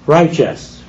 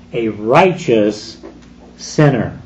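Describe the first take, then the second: First: "righteous" set apart, slightly raised with a falling close; name "righteous" alone with weight; stress on righteous. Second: "righteous" drawn out and weighted, then a falling "sinner"; stress on righteous. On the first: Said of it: "with emphasis on the word". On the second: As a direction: stretch and press "righteous", drop on "sinner". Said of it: "with emphasis on the word righteous". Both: Shown as a demonstration.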